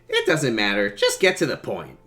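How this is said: The line is read in an odd tone.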